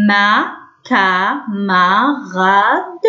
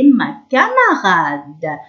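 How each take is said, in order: First: ما كاماراد very slowly, each syllable apart. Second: Said in the usual way. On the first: Shown as a demonstration. Teacher reading to young pupils, syllable by syllable. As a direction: sound out ما كاماراد piece by piece. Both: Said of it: "شفتوا هنا سي مع الأ".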